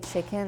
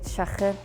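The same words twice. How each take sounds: First: It is said in the speaker's own plain accent. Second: It is said in a Liverpool accent. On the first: "we would say chicken" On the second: "they'd say chicken"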